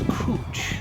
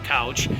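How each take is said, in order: First: It is said the French way, ending in sh. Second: It is said like English couch, ending in ch. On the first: The speaker calls it right. "it's couche" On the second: The speaker calls it wrong. "it's spelled like couch, but it's not couch"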